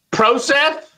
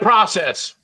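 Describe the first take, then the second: First: Process with a long "o" as in "proh-cess", said a little higher; pretentious pronunciation. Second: "process" with a short "o" as in "prah-cess"; plain process. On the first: Mocking a pretentious way of saying "process" to friends. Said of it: "You know what sounds pretentious?". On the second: Setting the ordinary "process" against the pretentious one. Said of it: "instead of process". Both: Shown as a demonstration.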